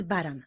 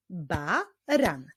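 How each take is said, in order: First: Said in the usual way. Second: "Baran" as Ba, pause, ran; syllable by syllable. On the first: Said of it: "Tym razem wyklaszczmy". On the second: Shown as a demonstration. Teacher showing how to clap it, "Baran" in separated syllables. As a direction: split "Baran" into two measured beats.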